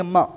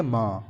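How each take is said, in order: First: म as a short 'm', vowel cut off; half consonant. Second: म drawn out as a long 'maa'; full syllable. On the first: Teacher demonstrating a half letter, म said short. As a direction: say म briefly, without a full vowel. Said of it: "यहाँ पर आधा म दिया है". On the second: Teacher demonstrating the full letter, म held long. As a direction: hold the vowel of म fully open. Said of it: "जब अगर पूरा होगा". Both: Shown as a demonstration.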